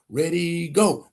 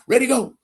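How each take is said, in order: First: The count is said slowly. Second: The count is said quickly.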